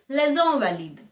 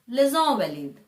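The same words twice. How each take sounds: First: It is said with the French pronunciation. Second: The same.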